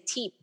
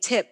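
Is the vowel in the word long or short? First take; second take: long; short. First: The vowel is long, as in 'seat'. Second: The vowel is short, as in 'sit'. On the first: "you say teep" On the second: "instead of saying tip"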